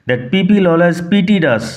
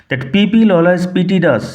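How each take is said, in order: No difference in how they are said.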